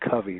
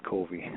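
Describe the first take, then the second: First: Covey with a short u, as in "cover"; Covey as CUV-ee. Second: Covey with a long o, as in "cove"; Covey as COH-vee. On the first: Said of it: "he wants me to make sure". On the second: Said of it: "not Covey". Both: Shown as a demonstration.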